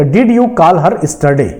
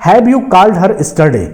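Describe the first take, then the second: First: Words spaced out slowly as a dictation; teacher slowly reading the corrected question; slow example read. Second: Words spaced out slowly as a dictation; teacher slowly reading the original example question. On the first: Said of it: "तो". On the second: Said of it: "दूसरा example कह रहा है कि". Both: Shown as a demonstration.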